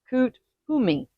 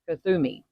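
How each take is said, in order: First: The name is split into two separate parts. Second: The name is run together as one word.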